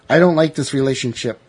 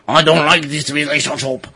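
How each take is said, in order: First: It is said in the speaker's ordinary accent. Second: It is said in an imitated French accent.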